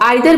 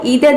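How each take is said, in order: First: The first vowel sounds like 'eye'. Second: The first vowel sounds like 'ee'. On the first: "इसको आप आइदर भी बोल सकते हैं" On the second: "और ईदर भी बोल सकते हैं, दोनों प्रोनाउंसिएशन इसका सही होगा"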